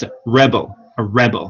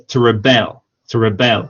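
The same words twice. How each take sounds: First: "rebel" said REB-ul, weight on REB; stress on first syllable. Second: "rebel" said ri-BEL, weight on BEL; stress on second syllable. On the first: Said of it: "if it's a verb". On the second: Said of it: "if it's a noun, that is". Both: Shown as a demonstration.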